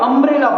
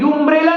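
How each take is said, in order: First: The word begins with an 'uh' sound. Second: The word begins with a 'yu' sound. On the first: The speaker calls it right. "आप अम्ब्रेला बोलते हो" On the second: The speaker calls it wrong. "यू अम्ब्रेला नहीं बोलते"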